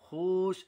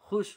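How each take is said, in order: First: The vowel is stretched out long. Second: The vowel is kept short. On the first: The speaker calls it wrong. "ऐसा खींच कर नहीं पढ़ेंगे" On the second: The speaker calls it right. "बल्कि खुश हुए"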